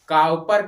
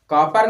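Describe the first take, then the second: First: The first vowel sounds like 'ow' in cow. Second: The first vowel sounds like 'o' in cot. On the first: The speaker calls it right. "काउपर कहते हैं" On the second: The speaker calls it wrong. "कॉपर नहीं"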